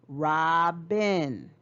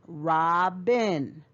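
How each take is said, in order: Both takes have the same delivery.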